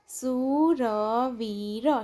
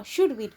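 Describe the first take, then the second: First: સુરવીર very slow, every syllable held long; drawn-out સુરવીર, syllables separated. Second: Said in the usual way. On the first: Shown as a demonstration. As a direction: sound out સુરવીર slowly for beginner readers. Syllable-by-syllable reading, then whole word.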